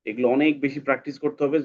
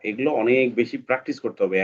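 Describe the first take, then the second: No difference in how they are said.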